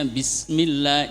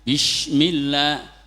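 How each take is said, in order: First: The consonant is a plain s sound. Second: The consonant is a hushing sh sound. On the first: The speaker calls it right. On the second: The speaker calls it wrong. "sering keseletot"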